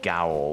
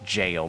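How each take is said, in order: First: The word sounds like 'gowl', rhyming with 'howl'. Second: The word sounds like 'jail', rhyming with 'mail'. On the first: The speaker calls it wrong. "not gowl" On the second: The speaker calls it right. "that is pronounced jail"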